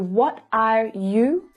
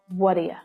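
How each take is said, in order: First: The last word is a full, clear 'you'. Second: The last word is reduced to a weak 'ya'.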